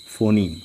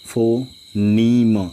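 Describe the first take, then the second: First: Said in the usual way. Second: Drawn out. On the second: Shown as a demonstration. Teacher to students, phoneme drawn out very slowly. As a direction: stretch phoneme very slowly, as one long drawn word. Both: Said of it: "जैसा कि मैंने आप लोगों से कहा था".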